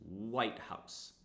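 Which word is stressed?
White. The first word is stressed and higher in pitch. It names the president's residence as one compound word. "every compound word, the first word is stressed"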